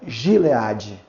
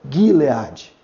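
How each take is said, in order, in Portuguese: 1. Começa com um som suave, parecido com J. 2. Começa com um G duro. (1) "Nunca seria Gileade" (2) "mas seria Gileade"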